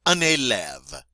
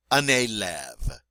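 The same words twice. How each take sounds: First: "Un élève" said clearly; French model word. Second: "Un élève" repeated slowly; slow French repeat. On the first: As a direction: say "Un élève" with crisp vowels. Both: Shown as a demonstration. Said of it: "You try".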